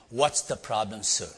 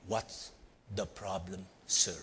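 First: Lightly acted confrontation in one unbroken phrase; mild tough-guy question; big man's challenge. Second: Low, quiet, halting threat; acted tough guy's slow challenge; menacing big man. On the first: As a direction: ask it firmly, without pauses. Same question repeated, more briskly. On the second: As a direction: pause between phrases, soft and deep. Big man confronts him, acted.

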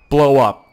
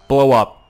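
No difference in how they are said.

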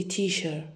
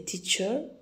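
First: TEACHER with SH in the middle, as teasher; wrong pronunciation. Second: TEACHER with a tch sound in the middle; correct pronunciation. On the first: Teacher showing learners what not to say, SH mispronunciation. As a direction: say TEACHER as tee-sher. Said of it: "we don't say teacher". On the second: Teacher modelling the right word for learners, CH pronunciation. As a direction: say TEACHER as tee-cher. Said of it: "We say teacher". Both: Shown as a demonstration.

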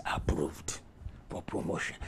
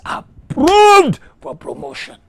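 First: Low, soft, half-whispered pronouncement; hushed verdict. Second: High, explosive shout of approval; climactic shout. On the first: Acted. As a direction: drop right down for God's verdict. Preacher drops voice as God. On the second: Real, not acted. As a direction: cry the verdict out at full force. Climax of the declaration.

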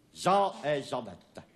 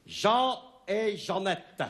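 First: Said in the usual way. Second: Slow, higher announcing the title; poem title announced. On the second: Shown as a demonstration. (titre annoncé lentement)

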